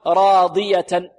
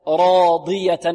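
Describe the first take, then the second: First: راضية with the ض lacking itbaq; slow faulty demo of راضية; wrong unpressed ḍad. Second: راضية with tongue pressed to palate on ض; strong, careful demo of راضية; ḍad with itbaq. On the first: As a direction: mispronounce راضية with a thinned ḍad. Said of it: "لا نقول راضية". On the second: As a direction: say راضية with a full emphatic ḍad. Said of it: "نحافظ على إطباق الضاد". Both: Shown as a demonstration.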